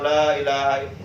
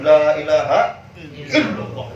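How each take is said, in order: First: It is said flatly, with no push. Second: It is said forcefully, with a strong push. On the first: It is only read through. The speaker calls it wrong. "bukan sekedar baca la ilaha illallah" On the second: It is driven into the heart. The speaker calls it right. "itu namanya dihentakkan"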